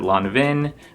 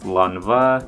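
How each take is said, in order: First: The name ends with a clear 'n' sound. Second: The name ends on a vowel, no 'n'. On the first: This is how some people say it. "some people pronounce it Lonvin" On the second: This is the pronunciation found online. "it's pronounced Lonva"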